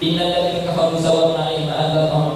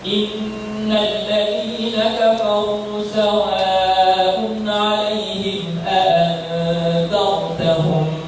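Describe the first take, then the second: First: It is recited quickly and hurriedly. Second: It is recited slowly and carefully. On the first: The reading brings no calm to the soul. The speaker calls it wrong. "kita baca dengan cepat" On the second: Each letter is given its due, bringing calm. The speaker calls it right. "baca dengan satu keadaan yang tertil"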